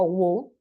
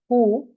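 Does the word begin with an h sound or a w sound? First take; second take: w sound; h sound. First: The word begins with a w sound. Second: The word begins with an h sound. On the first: The speaker calls it wrong. "No who. Nosotros tendemos a decir who por la W" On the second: The speaker calls it right. "se dice who"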